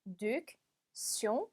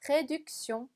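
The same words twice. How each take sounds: First: "réduction" very slowly, a pause after each syllable; broken into syllables. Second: "réduction" in one connected piece; joined up. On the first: Teacher helping learners with a hard word, "réduction" split syllable by syllable. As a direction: say "ré... duc... tion" in separate pieces. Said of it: "끊어서 읽어볼게요". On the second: Teacher putting the hard word back together, "réduction" run together as one word. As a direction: say "réduction" smoothly without breaks between syllables. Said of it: "붙여서". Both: Shown as a demonstration.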